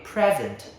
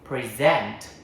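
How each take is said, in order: First: The stress is on the first syllable. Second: The stress is on the second syllable. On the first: It is a noun meaning a gift. "When it is noun, meaning a gift, the stress on the first syllable" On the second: It is a verb meaning to give or show. "when it is verb, meaning to give or to show, the stress shifts to the second syllable"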